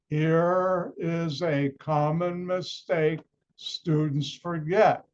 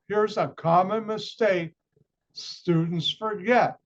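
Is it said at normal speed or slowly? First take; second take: slowly; normal speed. First: It is said slowly. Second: It is said at normal speed.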